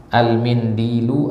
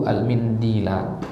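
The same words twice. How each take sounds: First: Al-mindilu drawn out with a final u; ending in -lu. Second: Al-mindila drawn out with a final a; ending in -la. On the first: Teacher offers students two possible endings, Al-mindilu slowly ending in u. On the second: Teacher offers students two possible endings, al-mindila slowly ending in a. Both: Shown as a demonstration. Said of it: "Apa maf'ulnya?".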